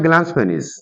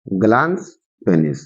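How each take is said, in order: First: Said in the usual way. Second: glans penis low and slow, with a pause between; lower, measured repeat of glans, then penis; slow dictation. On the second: Shown as a demonstration. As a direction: dictate glans penis one word at a time. Teacher repeats term for students.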